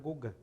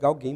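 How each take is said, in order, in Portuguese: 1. O nome é dito com pronúncia francesa. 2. O nome é lido como se escreve. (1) "mas é Gauguin" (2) "se escreve Gauguin"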